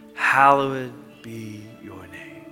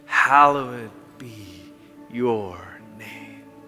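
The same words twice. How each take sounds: First: It is said at a normal pace. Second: It is said slowly.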